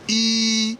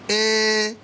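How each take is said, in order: First: The letter is given its English letter-name sound. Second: The letter is given its Igbo vowel sound. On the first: "English we call this E" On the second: "but in Igbo language we shall say A"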